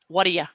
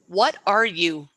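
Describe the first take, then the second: First: The last word has a short uh vowel. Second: The last word has a full oo vowel.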